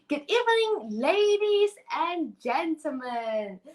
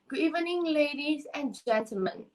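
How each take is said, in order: First: It is said with lively expression. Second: It is said flatly, without expression.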